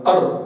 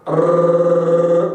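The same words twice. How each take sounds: First: أر with one quick tap of the tongue, then released at once; correct single tap. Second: أر held long, the r rolled on and on; overlong trilled r. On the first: Teacher modelling the correct r for students, one crisp tap. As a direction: strike the palate once in أر and drop the tongue. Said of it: "يطرق الحنك الأعلى ثم تنزله مباشرة". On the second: Teacher demonstrating the over-repeated r, a long rolled trill. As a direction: let the tongue keep trilling the r in أر far too long. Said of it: "كلما زاد الزمن كلما زاد التكرار". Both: Shown as a demonstration.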